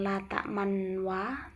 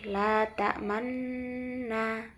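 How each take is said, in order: First: A full w-like sound is added after the m. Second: The lips round briefly with no added sound. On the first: The speaker calls it wrong. "bukan la ta'manwa" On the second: The speaker calls it right. "tapi la ta'manna"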